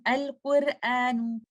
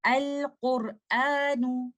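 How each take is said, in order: First: Al-Qur'anu with a thin R, like 'quir'; wrong light ra. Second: Al-Qur'anu slow, with a dark, rounded 'qor'; correct heavy ra. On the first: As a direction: say 'Al-Qur'anu' with the middle R light and fronted. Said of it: "Instead of saying Al-Qur'anu". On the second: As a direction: model 'Al-Qur'anu' slowly, R thick and full. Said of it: "So you will say". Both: Shown as a demonstration.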